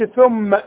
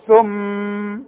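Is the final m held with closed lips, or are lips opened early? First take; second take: opened early; held closed. First: The lips open before the nasal m finishes. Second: The final nasal m is held with closed lips. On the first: The speaker calls it wrong. "وما اقولش ثم وافتح شفايفي" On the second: The speaker calls it right. "عاوز اعلم مثلا اقول ثم"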